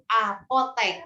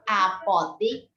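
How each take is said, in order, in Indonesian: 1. Suku kata terakhir diucapkan dengan vokal 'e'. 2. Suku kata terakhir diucapkan dengan vokal 'i'. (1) "apotek baku" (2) "apotik tidak baku"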